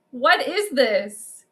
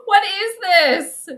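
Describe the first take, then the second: First: Said in the usual way. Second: Higher, louder, slow, half-laughing cry; real laughing despair; laughing wail. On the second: Real, not acted. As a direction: drag it out while cracking up. Repeated while laughing.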